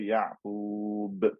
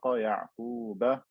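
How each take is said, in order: First: The word ends on the consonant, vowel dropped. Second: The word ends with a short 'a' vowel. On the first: The reciter pauses on the word. "I just have to stop and say Ya'qub" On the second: The reading continues without a stop. "with fatha"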